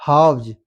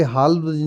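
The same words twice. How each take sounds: First: Halves with a silent L, like "haavz"; correct pronunciation. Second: Halves with the L sounded; wrong pronunciation. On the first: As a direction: say halves with no L at all. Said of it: "ये एल silent है". (halves सही उच्चारण, एल silent) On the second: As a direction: say halves as "halfs" with a clear L. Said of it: "यहाँ पे halves नहीं". (halves में एल बोलकर गलत उच्चारण) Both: Shown as a demonstration.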